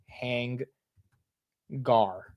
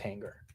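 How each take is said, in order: First: The second syllable is said like 'gar'. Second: The second syllable is said like 'ger'. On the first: "me saying hang gar" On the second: "versus hanger"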